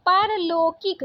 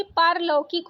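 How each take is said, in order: First: पारलौकिक said "par-lo-kik"; wrong vowel. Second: Said in the usual way. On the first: Shown as a demonstration. Teacher reading the misspelling, पारलौकिक with plain o. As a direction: close the au of पारलौकिक to o. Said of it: "पारलौकिक दिया है". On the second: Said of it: "जबकि पारलौकिक होता है".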